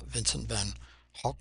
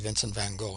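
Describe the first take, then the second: First: Gogh is said with a Dutch-style pronunciation. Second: Gogh is said with an English pronunciation. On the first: "I cannot get the Dutch pronunciation of his name ... something like that" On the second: "we say Vincent van Gogh, and I know that's not how you say his name properly"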